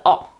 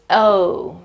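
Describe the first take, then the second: First: "O" cut to a short open aw; mistaken closing vowel. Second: "O" as a full gliding oh; correct O sound. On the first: Teacher showing a common mistake, short open vowel. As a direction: say "O" as short aw, without the glide. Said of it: "common mistake is to close the word". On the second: Teacher corrects the common mistake, full oh. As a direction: round "O" out into a long oh. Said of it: "That's not right, it's O". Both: Shown as a demonstration.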